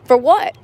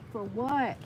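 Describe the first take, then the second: First: Sharp, louder rising "For what?"; exasperated demand. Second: Much softer, falling "For what?"; muttered repeat. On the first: Angry dancer demanding why she tipped, loud and indignant. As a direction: throw "For what?" out in disbelief. Fuming about the tips. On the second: Dancer repeating her grievance to herself, soft and bitter. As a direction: let "For what?" sink to a bitter murmur. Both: Real, not acted.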